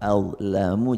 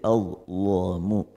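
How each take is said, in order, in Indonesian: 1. Bunyi L itu ringan dan tipis. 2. Bunyi L itu berat dan tebal.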